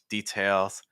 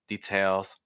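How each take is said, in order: Both takes have the same delivery.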